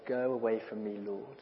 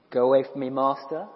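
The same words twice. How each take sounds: First: Hushed plea. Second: Said in the usual way. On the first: Shown as a demonstration. Preacher corrects to a hushed plea to Jesus. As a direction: go away from me said soft and hushed. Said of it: "No. He said".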